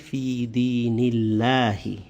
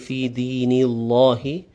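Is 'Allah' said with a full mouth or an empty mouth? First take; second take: empty mouth; full mouth. First: The word Allah is said with an empty mouth. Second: The word Allah is said with a full mouth. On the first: The speaker calls it right. "but empty" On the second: The speaker calls it wrong. "So you won't say"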